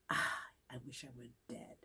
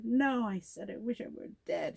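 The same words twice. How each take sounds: First: Soft, low sigh of misery; acted sick moan. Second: Higher, protesting correction; acted emphatic correction.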